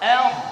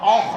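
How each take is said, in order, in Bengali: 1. ধ্বনিটি হালকা ও পাতলা। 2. ধ্বনিটি ভারী ও মোটা। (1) "হামজা পাতলা" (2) "হামজা মোটা হবে না।"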